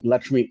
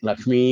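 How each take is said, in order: First: The final vowel is short. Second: The final vowel is long. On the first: It is the plain form of the name. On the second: It addresses the person directly.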